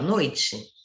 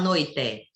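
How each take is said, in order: First: The final vowel sounds like I. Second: The final vowel sounds like E. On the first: The speaker calls it right. "você fala noite. Ele tá, dá um som de I" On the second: The speaker calls it wrong. "você não fala noite"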